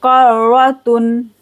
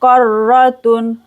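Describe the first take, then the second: First: Karratun with ra repeated; doubled ra. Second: Karratun with clear tun; tanween. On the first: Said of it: "रा को दो बार पढ़ेंगे". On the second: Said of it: "ता को दो पेश पढ़ेंगे". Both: Shown as a demonstration.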